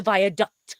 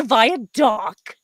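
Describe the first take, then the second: First: "viaduct" with a full duct ending. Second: "viaduct" ending in dock, no T; mispronounced as "viadock". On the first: Giving the correct word, "viaduct" ending in duct. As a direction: finish "viaduct" on a sounded KT. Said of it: "It's not a viaduct. It's a viaduct". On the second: Rejecting the Utah version, "viaduct" said as via-dock. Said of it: "It's not a viaduct". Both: Shown as a demonstration.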